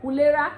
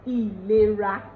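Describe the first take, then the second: First: "Ulera" as oo-leh-ra; higher "Ulera" with an oo opening; Ondo pronunciation. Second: "ìlera" as ee-leh-ra; Yoruba pronunciation. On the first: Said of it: "Another word here is". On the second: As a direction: open "ìlera" with an ee. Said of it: "in Yoruba is". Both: Shown as a demonstration.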